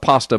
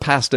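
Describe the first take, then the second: First: Pasta is said with a Southern US accent. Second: Pasta is said with a Canadian accent. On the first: This is how people in the South say it. "in the South we call it pasta" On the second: This is how someone from Canada says it. "you can call it pasta if you want from Canada"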